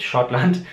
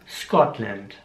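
First: "Schottland" in German with sch. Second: "Scotland" with sk start, slow; "Scotland" slowly with s-k; "Scotland" the English way. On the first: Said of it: "Also nicht Schottland". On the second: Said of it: "sondern Scotland". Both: Shown as a demonstration.

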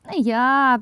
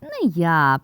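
First: Lightly squeaked refusal, raised pitch; squeaking mouse. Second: Mildly squeaked refusal; a touch of squeaky mouse; squeaking mouse. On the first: Mouse Krut refusing to knead the dough, lightly squeaked. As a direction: give a hint of a squeaky mouse. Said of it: "пищить Круть". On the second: Mouse Vert echoing the refusal to knead, mildly squeaked. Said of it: "пищить Верть". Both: A narrator's reading.

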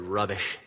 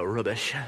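First: Said in the usual way. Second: Playful mock-British accent. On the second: Shown as a demonstration. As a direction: say it like a Brit, tongue in cheek. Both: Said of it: "like, a British accent".

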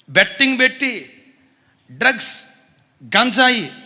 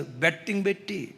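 First: Louder, hammered home; loud emphatic repeat. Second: Dropped, soft aside; quiet first mention. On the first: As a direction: repeat it loud, driving the point. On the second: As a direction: say it low, almost to yourself. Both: Real, not acted. Betting repeated, quiet then loud.

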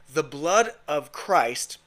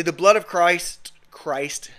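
First: Slow, deliberate "The blood of Christ"; careful retake. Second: Loud "the blood of Christ", then "Christ" retried under the breath; stumbling pronunciation. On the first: Preacher restarts after tripping over his words, careful retake. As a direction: say "The blood of Christ" slowly, each word set apart. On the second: Preacher trips over his words on the blood of Christ, stumbling. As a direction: trip on "Christ" and retry it weakly. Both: Real, not acted. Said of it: "having a hard time pronunciating today".

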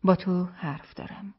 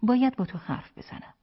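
First: Slow, measured, pleasantly voiced request. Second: Higher, more pressing request; insistent repeat. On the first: Wife asks her husband for a word, pleasant and slow. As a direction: say it pleasantly, taking your time. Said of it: "با لحنی خوش گفت". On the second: Wife repeats her request to her husband, insistent. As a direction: press the point, pitched up. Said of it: "او تکرار کرد". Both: A narrator's reading.

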